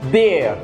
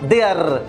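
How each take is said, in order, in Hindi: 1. अंतिम R की ध्वनि मौन है। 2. अंतिम R की ध्वनि बोली जाती है। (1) "आपने अपने R को क्या कर दिया? Silent कर दिया।" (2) "not there"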